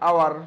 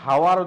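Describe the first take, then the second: First: The word begins directly with a vowel sound. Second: The word begins with an audible h sound. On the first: The speaker calls it right. "উচ্চারণ আমরা আওয়ার করি" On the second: The speaker calls it wrong. "ওটা তো আমরা হাওয়ার উচ্চারণ করি না"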